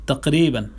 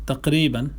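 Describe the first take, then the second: Both takes have the same delivery.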